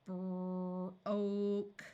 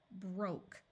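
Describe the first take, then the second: First: Broke drawn out slowly; sounded out slowly. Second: Said in the usual way. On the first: Shown as a demonstration.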